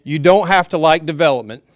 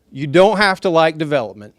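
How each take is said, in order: First: Loud, raised voice to the room; raised voice, almost shouting; yelling. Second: Loud but friendly, smiling; a smiling, friendlier raised voice; with a smile. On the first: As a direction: project it like a yell. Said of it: "when I'm yelling". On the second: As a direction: say it smiling to soften it. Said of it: "I'll say it with a smile". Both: Real, not acted.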